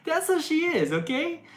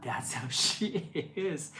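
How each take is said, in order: First: Much higher and louder, insisting on "how"; emphatic insistence. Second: Laughing. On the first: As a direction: drive the point home to the commenters. Insisting after repeating herself. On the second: Defending her friend, laughing. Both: Real, not acted.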